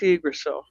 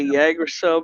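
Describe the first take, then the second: First: The word begins with a vowel sound. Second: The word begins with a Y sound. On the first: The speaker calls it right. "it's Agricel" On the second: The speaker calls it wrong. "Sometimes people say Yagricel, but no"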